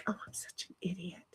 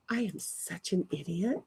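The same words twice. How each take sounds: First: Breathless whisper, no voice at all; whispered self-scold. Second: Much softer, but with voice; quiet self-scold. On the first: Scolding herself in a whisper after a mistake. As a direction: hiss it to yourself like a muttered kick. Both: Real, not acted.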